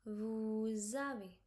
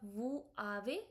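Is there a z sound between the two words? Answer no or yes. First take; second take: yes; no. First: A soft z sound links the two words. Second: No z sound links the two words. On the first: The speaker calls it right. "Here you have to give a soft Z sound" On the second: The speaker calls it wrong. "instead of vous avez"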